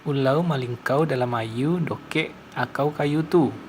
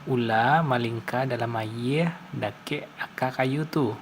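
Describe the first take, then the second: First: Final r and l sounds become an 'au' sound. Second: Final r and l sounds are simply dropped. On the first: "Sementara bahasa Sungai Lanse" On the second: "Contoh kalimat bahasa Minang umumnya itu seperti ini"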